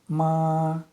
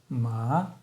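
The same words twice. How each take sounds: First: The pitch stays high and level. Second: The pitch rises from middle to high. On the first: "прямой тон" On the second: "восходящий тон"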